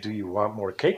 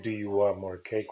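First: The pitch moves with inflection on the question. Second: The pitch stays flat without any inflection. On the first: "but you use the inflection" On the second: "without an inflection"

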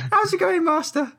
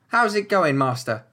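First: It is said in a put-on halfling voice. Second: It is said in a plainer voice.

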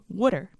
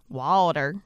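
First: Water is said in a Philadelphia accent. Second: Water is said in a Southern accent.

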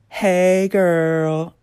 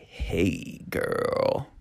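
First: It is said in a casual, friendly way. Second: It is said in a flirtatious, romantic way.

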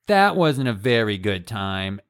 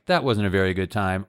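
First: It is said in a whiny, drawn-out tone. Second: It is said in a plain complaining tone. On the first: An annoying, self-pitying grievance. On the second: A plain statement of dissatisfaction.

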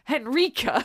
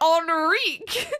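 First: The name is pronounced the German way. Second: The name is pronounced the French way. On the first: The speaker calls it right. "I'm German. It's Henrika" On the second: The speaker calls it wrong. "oh, it's French"

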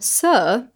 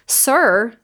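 First: The final R is dropped. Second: The final R is clearly pronounced.

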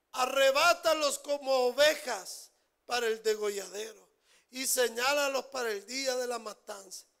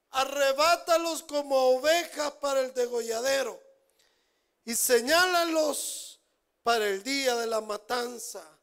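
No difference in how they are said.

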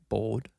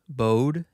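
First: The L sound is clearly pronounced. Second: The L sound is dropped entirely. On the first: "which to me sounds like I'm saying the L" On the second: "doesn't like enunciating the L"

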